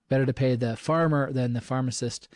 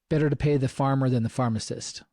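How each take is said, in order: Both takes have the same delivery.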